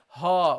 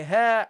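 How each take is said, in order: First: "ha" with a dark, heavy a. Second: "ha" with a light, bright a. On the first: Teacher contrasts right and wrong ha, heavy. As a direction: make the "ha" heavy, as a mistake. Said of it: "you don't say ha". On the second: Teacher contrasts right and wrong ha, light. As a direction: keep the "ha" light. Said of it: "You say ha". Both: Shown as a demonstration.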